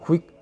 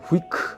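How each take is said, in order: First: The final k is barely audible and very soft. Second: The final k is released as a full syllable. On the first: The speaker calls it right. "아주 작게" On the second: The speaker calls it wrong. "원래 발음하게 되면 후이크 안 합니다"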